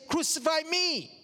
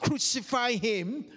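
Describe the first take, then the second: First: "Crucify me" pitched high, falling on ME; declared alternative. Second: Mild retold shout, "Crucify him" left rising; mock shout. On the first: Retold or imitated. Preacher offering the congregation the other answer, high emphatic declaration on ME. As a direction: lift "Crucify me" high, landing firmly on ME. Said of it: "Or do we say". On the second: Preacher asking the congregation what we shout, mild mock shout. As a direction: voice the crowd's "Crucify him" as a restrained questioning cry. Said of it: "do we shout".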